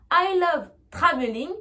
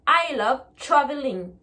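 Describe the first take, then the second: First: TRAVELING with a full T and a French R; French-accented TR. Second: TRAVELING said "chraveling", very faint R. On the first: Teacher showing learners the unchanged word, French-accented TR. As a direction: say TRAVELING with T and R both clearly sounded. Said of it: "ça va devenir". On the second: Teacher showing what it becomes, TRAVELING with ch. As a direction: soften the TR in TRAVELING to ch. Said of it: "le T va être un son ch". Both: Shown as a demonstration.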